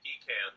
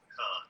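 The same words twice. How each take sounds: First: It is said the Pennsylvania way. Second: It is said the way people say it here.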